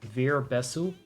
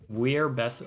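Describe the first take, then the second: First: The name is said with a non-English pronunciation. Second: The name is said with an English pronunciation. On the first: "I cannot help but pronounce his name. It's like W E E R as" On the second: "that would be the English pronunciation"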